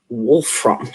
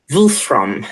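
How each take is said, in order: First: Said in the usual way. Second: Wolfram said in a German accent. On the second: Shown as a demonstration. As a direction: give Wolfram a German accent, a bit louder. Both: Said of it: "in a German accent".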